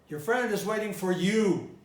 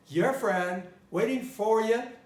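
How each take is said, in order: First: The stress does not fall on for. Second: The stress falls on the word for. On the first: "I didn't say" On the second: "I'm stressing the preposition in this case, for you"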